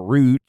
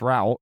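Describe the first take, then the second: First: "route" said like "root". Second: "route" said to rhyme with "out"; ROUTE rhyming with out. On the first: Host offering both ways to say it, "route" as root. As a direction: say "route" with a long OO vowel. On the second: Host offering both ways to say it, "route" as rowt. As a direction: say "route" with an OW vowel. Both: Shown as a demonstration. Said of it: "whatever way you say it".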